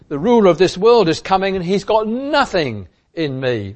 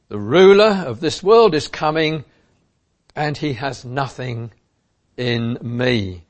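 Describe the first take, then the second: First: "nothing in me" stressed as if in capital letters; very emphatic. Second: Said in the usual way. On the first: Shown as a demonstration. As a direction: declare it with full emphasis on "nothing". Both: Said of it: "we could well put it in capital letters".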